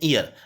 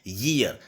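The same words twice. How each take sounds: First: The word begins with a plain vowel sound. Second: The word begins with a y sound. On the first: The speaker calls it wrong. "लोग generally इसे pronounce करते हैं ईयर" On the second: The speaker calls it right. "सही में जो pronunciation होता है ... ये से बोला जाता है"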